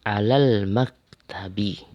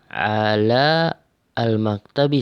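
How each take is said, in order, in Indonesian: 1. Huruf 'a' pada artikel dihilangkan dan disambung. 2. Artikel 'al' diucapkan sebagai suku kata yang terpisah. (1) "langsung baca alal, langsung ke lam"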